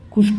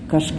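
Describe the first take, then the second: First: کش said "kush", short u; pesh on kaf. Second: کش said "kash", short a; a after kaf. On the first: Teacher explaining the word for killing, کش as "kush". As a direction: say کش with a u sound. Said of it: "کاف کے پیش کے". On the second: Teacher explaining the word for pulling, کش as "kash". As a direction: say کش with an a sound. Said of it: "غلط تلفظ مشہور ہے". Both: Shown as a demonstration.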